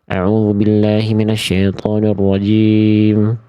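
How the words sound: It is mumbled with unclear articulation.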